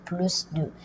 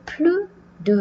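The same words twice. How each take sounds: First: The final S of plus is pronounced. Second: The final S of plus is silent. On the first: It expresses a comparison. "on prononce le S" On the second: It is followed by a number. "on ne va pas prononcer le S"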